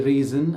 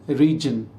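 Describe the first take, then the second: First: The middle consonant is a buzzing z sound. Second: The middle consonant is a j sound. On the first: The speaker calls it right. "I didn't say reason" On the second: The speaker calls it wrong. "I said region"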